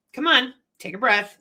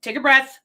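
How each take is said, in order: First: Gentle coaxing. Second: Louder, firm take a breath; firm calming command. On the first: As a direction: coax them gently to breathe. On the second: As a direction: tell them firmly to breathe. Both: Retold or imitated. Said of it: "is we say".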